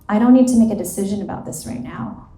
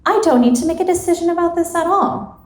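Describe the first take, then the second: First: Said in the usual way. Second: Higher, quick dismissal of the whole decision; high-pitched self-talk. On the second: Acted. Acted self-talk, second of two versions.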